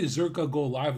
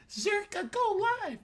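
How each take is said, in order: First: Said in the usual way. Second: Much higher, shrill demanding whine; caps lock shout. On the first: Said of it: "without the caps lock". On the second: Retold or imitated. Mocking a viewer typing in caps lock to demand a stream. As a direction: screech it like an all-caps chat message. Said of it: "If you say it like".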